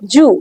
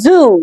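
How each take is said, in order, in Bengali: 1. এটা একটা j শব্দ দিয়ে শুরু হয়। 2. এটা একটা গুনগুনে z শব্দ দিয়ে শুরু হয়। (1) "এটা কিন্তু ঠিক না" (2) "বাজিং সাউন্ড, সেই সাউন্ডটার মতন জ"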